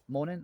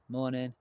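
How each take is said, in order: First: It is said brightly, with lively energy. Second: It is said flatly, without energy. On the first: The speaker calls it right. "should be like morning" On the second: The speaker calls it wrong. "Don't be like morning"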